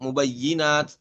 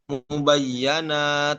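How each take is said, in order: First: The vowel after the doubled y is i. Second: The vowel after the doubled y is a. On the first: This is one reading tradition's version. "Itu kan dibaca dengan kasroh ya" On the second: This is another reading tradition's version. "Imam Syu'bah membaca dengan fat fathah huruf ya-nya"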